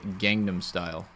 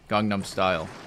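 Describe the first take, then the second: First: It is said with an American-style pronunciation. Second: It is said with a Korean-style pronunciation.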